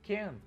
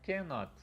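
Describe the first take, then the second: First: It is said as the contracted form can't. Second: It is said as the full form cannot.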